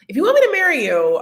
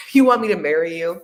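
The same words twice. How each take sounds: First: High, loud and fast, hammering the word me; emphatic high repeat. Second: Said in the usual way. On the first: Shown as a demonstration. Repeating the advice to viewers, now high and loud. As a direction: jump up and shout it fast for emphasis. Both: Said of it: "repeats the line louder".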